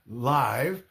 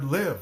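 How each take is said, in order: First: The vowel is long, like the letter name. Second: The vowel is short, as in 'give'. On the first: "but it doesn't say live" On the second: "like I live in the United States"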